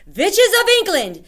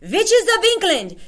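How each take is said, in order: First: High, loud commanding shriek; Grand High Witch shouting. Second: High, loud commanding shriek; Grand High Witch yelling. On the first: Grand High Witch shouting to her assembled witches. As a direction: summon the whole hall to attention. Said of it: "shouted the Grand High Witch". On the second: Grand High Witch yelling at the witches again. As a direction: call the hall to order again, louder. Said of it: "she yelled". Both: Acted.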